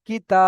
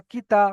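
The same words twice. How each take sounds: First: কি তা with short কি and long held তা; the right way: sustain তা in কি তা; elongated TA. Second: কি তা with both syllables short; the wrong way: কি তা left unstretched; no stretch yet. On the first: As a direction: stretch the vowel of তা in কি তা. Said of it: "তাহলে হবে". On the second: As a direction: cut তা short in কি তা. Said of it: "শেষে গিয়ে টান করছি". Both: Shown as a demonstration.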